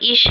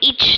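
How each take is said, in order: First: The word ends in a soft sh sound. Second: The word ends in a hard tch sound. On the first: The speaker calls it right. "ये इश है" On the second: The speaker calls it wrong. "ये इच नहीं है"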